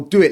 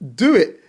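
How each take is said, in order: First: It is said in a sly, mocking tone. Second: It is said in a sincere, encouraging tone. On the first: A challenge, doubting the other can do it. "he wasn't saying it in a way of like, oh, do it" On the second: Sincere permission and encouragement. "No, he was genuine"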